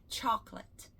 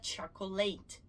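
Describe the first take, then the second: First: Chocolate said in two syllables, CHOK-let; correct pronunciation. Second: Chocolate said as cho-co-late, the late rhyming with English late; the mistaken chocolate, three syllables cho-co-late; wrong pronunciation. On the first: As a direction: correct chocolate, choc-let, the middle o dropped. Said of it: "É chocolate". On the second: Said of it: "Mas chocolate não é". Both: Shown as a demonstration.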